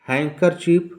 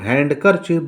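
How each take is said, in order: First: The d sound is silent. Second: The d sound is pronounced. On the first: The speaker calls it right. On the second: The speaker calls it wrong.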